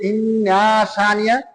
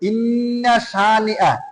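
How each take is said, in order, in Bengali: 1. "inna"-এর শেষ স্বরধ্বনি দীর্ঘ করে টানা হয়। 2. "inna"-এর শেষ স্বরধ্বনি হ্রস্ব। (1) "আর যদি বলেন যে ইন্না শানিআ ... অর্থ বদলায়া যায়" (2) "নিশ্চয়ই তাদের শান হলো"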